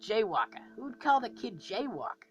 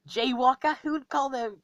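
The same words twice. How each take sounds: First: Rocket. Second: High, louder, British-sounding quip; accidental British accent. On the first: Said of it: "but I'm voicing Rocket". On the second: Creator voicing Rocket's little joke, accidental British accent. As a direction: slip into a British accent, pitched up. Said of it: "I don't know why that sounded British". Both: Acted.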